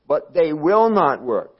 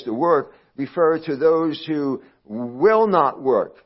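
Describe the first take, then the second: First: Will hit louder, slow; stress on will. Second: Will drawn out and pressed, slow; stress on will. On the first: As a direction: repeat will not work firmly. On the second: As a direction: make will carry the point. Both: Shown as a demonstration. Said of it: "not cannot work".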